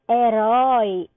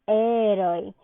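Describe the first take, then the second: First: The stress falls where Portuguese places it. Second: The stress falls where Spanish places it.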